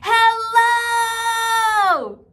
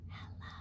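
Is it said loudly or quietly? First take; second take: loudly; quietly. First: It is said very loudly. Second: It is said very quietly.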